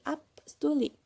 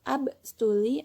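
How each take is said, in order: First: The consonant before the s sounds like p. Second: The consonant before the s sounds like b. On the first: "menjadi up stuli" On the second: "huruf B jika diikuti dengan S maka berbunyi P"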